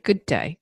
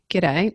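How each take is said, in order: First: It is said as two full words. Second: It is clipped into a quick g'day. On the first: The speaker calls it right. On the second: The speaker calls it wrong. "not g'day"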